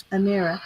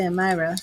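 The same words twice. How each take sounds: First: Amira pronounced "uh-MEER-uh"; ee in the middle. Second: Amira pronounced "uh-MY-ruh"; eye in the middle. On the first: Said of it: "I don't know why I wanna say Amira". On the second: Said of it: "I don't know why I wanna say". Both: Real, not acted.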